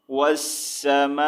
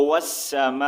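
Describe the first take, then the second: First: والسماء with a long held "maa", then a clear "i"; slow recited والسماء, final hamza voiced as "i"; full reading with zer. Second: والسماء with long "maa", stopped without the "i"; slow pausal والسماء, no final vowel; light final hamza. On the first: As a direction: stretch والسماء slowly and finish on "-i". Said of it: "زیر کا sound ہم نے ریڈ نہیں کرنا". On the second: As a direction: hold the end of والسماء, close on a slight glottal catch. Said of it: "حمزہ کا ہلکا سا ساؤنڈ لاسٹ میں". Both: Shown as a demonstration.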